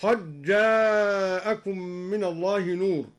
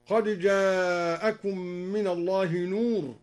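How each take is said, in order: First: "قد جاءكم" recited with d merged into a doubled j; idgham. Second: Said in the usual way. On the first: Shown as a demonstration. Reciter showing al-Duri's reading, d assimilated in "قد جاءكم". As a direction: say "قد جاءكم" as qajjaa-akum, no d. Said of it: "أدغم الدال في الجيم هكذا". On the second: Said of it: "أدغم الدال في الجيم".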